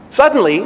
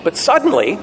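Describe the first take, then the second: First: "suddenly" said higher and louder, punched; stressed repeat. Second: Said in the usual way. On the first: Shown as a demonstration. Preacher building the storm story, pressing "suddenly" harder. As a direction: hit "suddenly" harder the second time. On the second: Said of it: "suddenly, suddenly".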